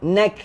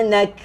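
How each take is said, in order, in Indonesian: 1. Kata itu berakhir tegas pada bunyi k. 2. Kata itu berakhir tegas pada bunyi k.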